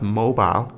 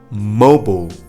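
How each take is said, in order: First: The last syllable has a full long I vowel. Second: The last syllable has no long I vowel. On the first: The speaker calls it wrong. "It's not mobile" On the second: The speaker calls it right. "there is no pronunciation of I"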